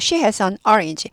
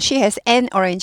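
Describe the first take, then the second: First: The article is reduced to a quick 'on'. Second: The article is said as a full 'an'. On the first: The speaker calls it right. "문장을 읽을 때에는 on orange가 됩니다" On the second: The speaker calls it wrong. "하지 않고"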